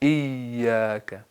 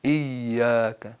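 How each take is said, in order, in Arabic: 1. الحرف الأوسط ياء خفيفة. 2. الحرف الأوسط ياء خفيفة.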